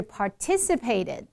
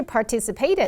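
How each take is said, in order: First: "participated" stressed on "TIS", slow; weight on the second syllable of "participated"; correct stress. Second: "participated" with stress on "PAY"; weight late in "participated", par-ti-ci-PAY-ted; wrong stress. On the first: Teacher correcting students, slow second-syllable stress. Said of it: "重音搞". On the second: Teacher showing what not to say, late stress. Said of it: "不是". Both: Shown as a demonstration.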